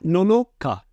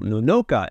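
First: The pitch stays level, then drops at the end. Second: The pitch rises up on the second syllable. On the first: The speaker calls it right. "It's a flat Nonoka and then you drop off that cut" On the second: The speaker calls it wrong. "that second no would be up on an incline"

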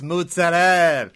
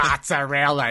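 First: Italian-American dialect pronunciation with the final vowel dropped. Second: Standard pronunciation with the final vowel pronounced.

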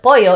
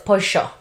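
First: The double L sounds like a y. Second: The double L sounds like sh.

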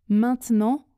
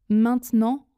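The two takes are said the same way.

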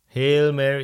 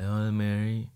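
First: It is said loudly and energetically. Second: It is said quietly and lazily.

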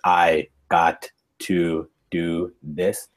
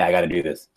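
First: Each word is said clearly and in full. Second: The words are reduced and run together. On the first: "you might think of the words" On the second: "it's completely different pronunciation"

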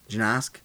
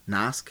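First: The name starts with a G sound. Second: The name starts with an N sound. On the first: "I think you pronounce the G?" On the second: "it's probably pronounced like Nosk"

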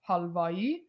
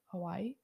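First: The name is said with an Iranian accent. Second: The name is said with an American accent. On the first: "if you want to say it like you're a true Iranian" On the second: "If you want to say it like you're an American, think Hawaii"

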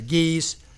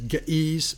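First: The word is said smoothly, without a catch. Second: The word has a hiccup-like catch in the middle. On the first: The speaker calls it right. "I'm just going to say Ge'ez" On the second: The speaker calls it wrong. "makes it sound like I've got hiccups"

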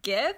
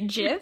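First: The word begins with a hard G sound. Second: The word begins with a J sound. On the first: This is the popular pronunciation. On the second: This is the creator's pronunciation.

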